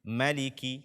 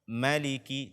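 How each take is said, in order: First: The first vowel is short. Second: The same.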